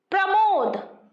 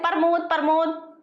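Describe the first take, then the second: First: प्रमोद with the pr cluster kept, pramod; correct pronunciation. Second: प्रमोद as parmod, r moved after the p; colloquial pronunciation. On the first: Teacher gives the proper form of the name प्रमोद. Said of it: "इसका सही नाम है". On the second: Teacher shows how people mangle प्रमोद into parmod. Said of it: "लेकिन हम लोग क्या कहते हैं". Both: Shown as a demonstration.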